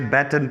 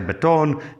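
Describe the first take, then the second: First: The word is said in a South African accent. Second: The word is said in an American accent. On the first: "We say batten" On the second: "in the States I say baton"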